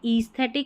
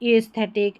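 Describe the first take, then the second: First: The first vowel is a long 'ee' sound. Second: The first vowel is a short 'eh' sound. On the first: The speaker calls it wrong. "ईस्थेटिक ऐसे करके नहीं पढ़ सकते" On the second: The speaker calls it right. "एस्थेटिक एस्थेटिक ऐसा।"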